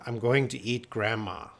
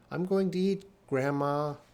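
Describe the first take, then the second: First: There is no pause before Grandma. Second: There is a pause before Grandma.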